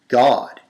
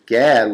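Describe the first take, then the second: First: The vowel sounds like the one in law. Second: The vowel sounds like the one in cat. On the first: The speaker calls it right. "but the pronunciation is God" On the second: The speaker calls it wrong. "as it reads here, Gad, what appears to be Gad"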